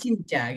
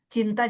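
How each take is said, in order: First: The middle consonant is a ch sound. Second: The middle consonant is a clear t sound. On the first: The speaker calls it wrong. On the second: The speaker calls it right.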